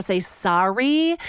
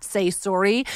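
First: SORRY said American, SAR-ee with open ah. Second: SORRY said Canadian, SORE-ee with rounded o. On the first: Host showing what she learned in America, SORRY as SAR-ee. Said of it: "over enunciate my American sorry". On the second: Host showing the word she trained herself out of, SORRY as Canadian SORE-ee. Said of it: "train myself to not say sorry". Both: Shown as a demonstration.

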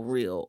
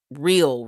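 First: Softer, lower repeat of real; quiet echo. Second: Said in the usual way. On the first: Shown as a demonstration.

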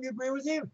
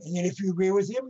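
First: Him higher but dropping to a soft, settled close; falling answer. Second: Him lifted on a rising tune, left open and a little quick; rising setup. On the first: Coaching the colonel's class speech: soft settled answer on him. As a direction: land it gently, higher then quieter on him. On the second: Coaching the colonel's class speech: first half rising on him. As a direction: set it up with an upward lilt on him. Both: Retold or imitated. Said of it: "Listen and open".

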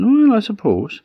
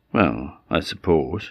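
First: High, drawn-up "well" of doubt; reluctant old woman. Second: Said in the usual way. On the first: Acted. Old woman accepts goat instead of cat or dog, high and doubtful. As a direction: give in with a high-pitched, doubtful lilt.

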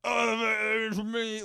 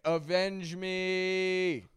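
First: Drawn-out, high, anguished cry; pained yelling out. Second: Mock dramatic yell. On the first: Retold or imitated. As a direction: overdo the passion, wail it slowly. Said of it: "even more passionate than that". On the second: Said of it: "And he's like".

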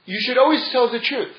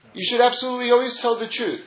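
First: Always leaned on, higher and falling; stress on always. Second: Absolutely always pushed higher and faster; stronger stress on absolutely always. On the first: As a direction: press on the word always. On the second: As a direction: insist hard on absolutely always. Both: Shown as a demonstration. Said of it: "let me give you an example".

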